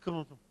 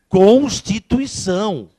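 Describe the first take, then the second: First: The word is mumbled with little lip movement. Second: The word is articulated clearly with moving lips. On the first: The speaker calls it wrong. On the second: The speaker calls it right.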